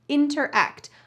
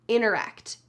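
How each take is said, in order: First: The first T sound is clearly pronounced. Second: The first T sound is dropped entirely.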